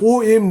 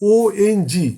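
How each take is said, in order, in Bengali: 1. শব্দটি m ধ্বনি দিয়ে শেষ হয়। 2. শব্দটি ng ধ্বনি দিয়ে শেষ হয়। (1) "উচ্চারণটা OM নয়"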